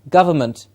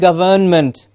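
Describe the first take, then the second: First: It is said with reduced schwa vowels throughout. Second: It is said with full vowels, like 'govern'. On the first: The speaker calls it right. "So we have three schwa sounds there. It's ga-va-ment" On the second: The speaker calls it wrong. "start saying government. Yes, because of the word govern in it"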